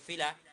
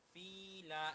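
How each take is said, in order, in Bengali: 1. 'fi' এর স্বরধ্বনি ছোট ও দ্রুত। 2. 'fi' এর স্বরধ্বনি টেনে দীর্ঘ করে বলা হয়। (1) "বলতে হবে ফিলা" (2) "ফিলা এরকম বলা যাবে না"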